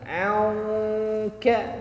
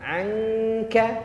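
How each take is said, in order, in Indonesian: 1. Bunyi sengau itu berat dan tebal. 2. Bunyi sengau itu tipis dan ringan. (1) "jangan angka" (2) "yang angka tipis"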